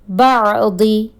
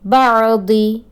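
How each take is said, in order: First: The final vowel is short. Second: The same.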